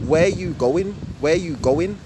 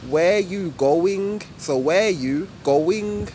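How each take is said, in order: First: "Where you going?" with "going" quick, rising at the end; roadman way. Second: Slow, even "Where you going?"; fifty-fifty normal way. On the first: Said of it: "the roadman way would be". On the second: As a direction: give "Where you" and "going" equal, drawn-out time. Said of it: "normal English way would be fifty fifty". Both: Shown as a demonstration.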